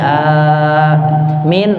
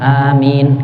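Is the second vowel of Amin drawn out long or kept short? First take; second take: long; short. First: The second vowel is held very long. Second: Both vowels are kept short. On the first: This follows the Shafi'i school. "Amin enam harokat. Min itu yang sesuai mazhab Syafi'i" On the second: This follows the Hanafi school. "Kalau Hanafi dua semua. Amin gitu"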